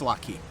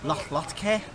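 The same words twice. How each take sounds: First: It has a plain k sound, no throaty ch. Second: It has a throaty ch sound and eh ending. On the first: This is how the speaker normally says it. "I just keep saying latke" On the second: This imitates how someone else said it. "He kept saying something like latke"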